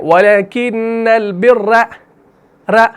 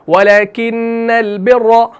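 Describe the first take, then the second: First: The final r is rolled with repeated trills. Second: The final r is said once without trilling. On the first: The speaker calls it wrong. "र नहीं" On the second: The speaker calls it right. "इस तरीके से पढ़ेंगे"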